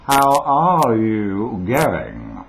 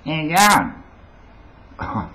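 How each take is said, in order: First: Slow, loud radio-neutral Australian, every word separate; carefully enunciated, toned-down Australian accent; neutralised Australian accent. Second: High, loud, drawn-out Aussie greeting; hammed-up street Australian, slurred together; broad Australian accent. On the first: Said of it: "it was that neutralised thing". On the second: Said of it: "couldn't get on the radio and say". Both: Shown as a demonstration.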